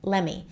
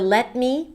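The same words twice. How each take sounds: First: The two words are reduced and run together. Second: Both words are said fully and separately.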